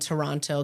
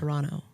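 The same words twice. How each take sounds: First: The second T is clearly pronounced. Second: The second T is dropped. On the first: The speaker calls it wrong. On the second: The speaker calls it right.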